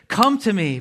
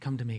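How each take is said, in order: First: It is said urgently with strong energy. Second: It is said quietly, softly and calmly. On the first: An urgent plea for people to come. The speaker calls it right. "It's supposed to be said urgently" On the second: A relaxed, casual invitation. The speaker calls it wrong. "all quiet and calm, like Jesus is whispering it and he's like very mellow"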